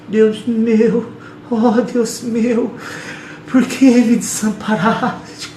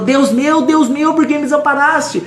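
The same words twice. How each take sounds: First: Higher, slow, drawn-out mock wail; mock feeble lament. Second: Much higher, ringing cry from the cross. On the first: Preacher mocking how people read Jesus' cry, slow drawn-out mock lament. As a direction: ham up a weak, pitiful prayer. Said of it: "A gente lê falando assim". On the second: Preacher showing Jesus on the cross, much higher full-voiced cry. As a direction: stretch up and cry it out to God. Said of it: "ele esticou e falou". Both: Shown as a demonstration.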